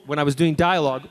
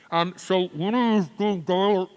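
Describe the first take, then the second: First: Said in the usual way. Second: Slow, muffled words as if behind a mask; muffled through a mask. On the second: Shown as a demonstration. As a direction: talk like your mouth is covered by a mask. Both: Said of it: "it sounded like this".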